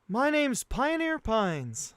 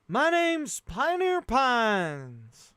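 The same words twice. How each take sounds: First: It is said in his normal voice. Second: It is said in a bad cowboy accent.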